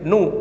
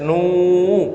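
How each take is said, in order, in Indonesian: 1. Vokalnya dibaca pendek. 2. Vokalnya dibaca panjang. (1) "nggak boleh nu" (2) "harus nu karena ada wawunya"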